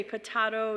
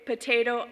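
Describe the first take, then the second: First: Potato with an "ah", po-TAH-to; broad A. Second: Potato with a long "ay", po-TAY-to. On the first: Quoting the song's other side, broad A. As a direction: say potato as puh-TAH-doh. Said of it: "I say potato". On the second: Quoting the song about accents, long A. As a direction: say potato as poh-TAY-toh. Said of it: "You say potato". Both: Shown as a demonstration.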